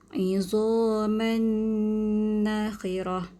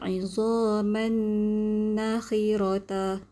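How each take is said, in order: First: The last word ends with an ah sound. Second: The last word ends with an ata sound. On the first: The speaker calls it right. "Tapi kita baca izaman nakhirah" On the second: The speaker calls it wrong. "Kita tak baca izaman nakhirata. Ha, itu salah"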